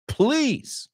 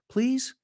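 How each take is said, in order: First: The word is said as a scornful dismissal. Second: The word is said as a polite request. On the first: The speaker is brushing someone off with contempt. "Añadimos una sílaba. Oh, please, please. Right? Very different intonation there" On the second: The speaker is politely asking for something. "So one thing is, please, por favor"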